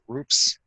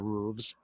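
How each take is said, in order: First: The word ends with an f sound. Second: The word ends with a v sound. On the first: The speaker calls it right. "we call them roofs" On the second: The speaker calls it wrong. "we don't say roofs"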